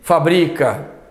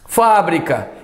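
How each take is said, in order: First: The stress is on the second syllable. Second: The stress is on the first syllable. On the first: It is a verb meaning he manufactures. "a forma verbal não. Uma paroxítona muda a vogal tônica" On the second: It is a noun meaning a factory. "o substantivo tem ah, o acento, porque é uma proparoxítona"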